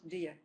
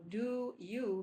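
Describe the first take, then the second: First: The vowels are reduced to weak schwa sounds. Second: The vowels are said full and clear. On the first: "So do you becomes do you" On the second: "the first two words are not stressed"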